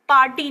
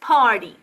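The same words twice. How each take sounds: First: It is said in an Indian accent. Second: It is said in a native English accent. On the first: The speaker calls it wrong. "पार्टी नहीं होता ये" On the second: The speaker calls it right. "This is पार्टी"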